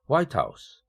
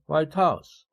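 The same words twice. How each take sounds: First: The stress falls on the first word, white. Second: The stress falls on the second word, house. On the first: It means the presidential residence. "백악관이지만" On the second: It means a house that is white. "구강세를 적용하면 하얀 집이죠"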